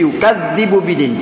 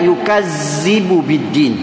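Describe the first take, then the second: First: The doubled consonant is a soft 'th' sound. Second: The doubled consonant is a buzzing 'z' sound. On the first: The speaker calls it right. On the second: The speaker calls it wrong.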